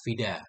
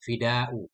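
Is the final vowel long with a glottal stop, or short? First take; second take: short; long. First: The final vowel is short with no glottal stop. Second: The final vowel is long and ends in a glottal stop. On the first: "Kasar nggak pakai hamzah" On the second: "Kalau mad pakai hamzah kan?"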